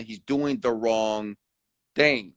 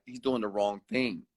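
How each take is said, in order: First: "He's doing the wrong thing" said very slowly, each word weighted; slow emphatic stress. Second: Said in the usual way. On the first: Shown as a demonstration. To viewers, insisting on right and wrong, slow and emphatic. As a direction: drag out "wrong thing" to hammer it home. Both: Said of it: "It's not about if he's hurting people".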